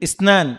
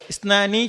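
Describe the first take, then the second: First: The word ends on a consonant, no final vowel. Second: The word ends with an added final vowel sound. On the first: The speaker calls it right. "സുക്കൂൺ എല്ലാത്തുക്കും" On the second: The speaker calls it wrong. "ഇസ്നാനി ചെല്ലതല്ല"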